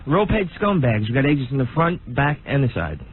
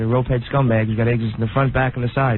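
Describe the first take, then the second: First: The line is spoken clearly and distinctly. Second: The line is mumbled and hard to understand.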